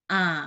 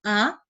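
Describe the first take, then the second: First: The pitch dips down low. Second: The pitch rises upward. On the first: "nada ketiga" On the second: "nada kedua itu bisa kepalanya ikut-ikut naik"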